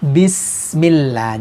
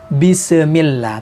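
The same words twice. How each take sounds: First: The s sound is held clearly without bounce. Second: The s sound is released with a bounce. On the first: The speaker calls it right. "tapi bismillah. Jadi sin itu harus jelas" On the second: The speaker calls it wrong. "Jangan dibaca bismillah"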